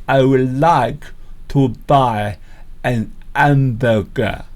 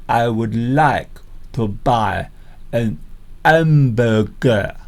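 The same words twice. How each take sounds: The two takes are said the same way.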